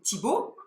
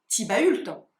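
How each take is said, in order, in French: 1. Le nom finit sur un son O simple. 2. Le nom se termine avec ses consonnes finales prononcées.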